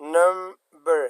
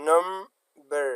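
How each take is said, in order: First: The stress is on the first syllable. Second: The stress is on the first syllable.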